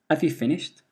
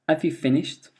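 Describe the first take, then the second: The two takes are said the same way.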